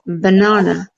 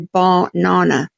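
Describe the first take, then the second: First: The first vowel is a short, weak schwa. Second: The first vowel is a long 'ar' sound. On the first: The speaker calls it right. "if you can listen to the first A sound when I say it" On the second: The speaker calls it wrong. "I don't go banana or bar-nana"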